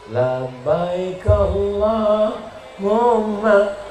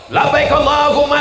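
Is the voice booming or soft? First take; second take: soft; booming. First: It is said in a soft, gentle voice. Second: It is said in a loud, booming voice. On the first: It lulls the listeners to sleep. "suaranya lemah lembut" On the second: It wakes the listeners up. "suaranya menggelegar"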